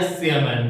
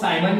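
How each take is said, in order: First: The first syllable sounds like 'see'. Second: The first syllable sounds like 'sigh'. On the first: The speaker calls it right. "इसका correct जो शुद्ध उच्चारण होता है" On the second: The speaker calls it wrong. "कई books में जो है सीएमएम को साइमन भी लिखता है"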